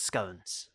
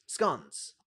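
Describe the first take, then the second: First: Scones with a long O, rhymes with cones. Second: Scones with a short O, rhymes with gone. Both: Shown as a demonstration. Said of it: "is it scones or scones?".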